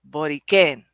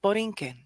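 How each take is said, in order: First: The stress falls on the last syllable. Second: The stress is not on the last syllable. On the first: "there's an accent on the E" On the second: "it's just Borinquen"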